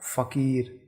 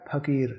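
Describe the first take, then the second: First: फकीर slowly, with a clear f sound; with nukta. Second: फकीर with aspirated ph, not f, as pakir; without nukta. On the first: Teacher shows फकीर with the nukta, slow f. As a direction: stretch फकीर out, starting on a soft f. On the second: Teacher shows फकीर without the nukta, aspirated ph. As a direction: say फकीर with a breathy ph sound. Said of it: "बिंदी हटा देते हैं तो ये होगा". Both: Shown as a demonstration.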